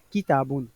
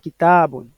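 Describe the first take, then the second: First: The stress is on the first syllable. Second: The stress is on the second syllable. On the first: The speaker calls it wrong. "on ne dira pas kita bon" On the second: The speaker calls it right. "On dira kita bon. L'accent tonique va passer sur la lettre élongée"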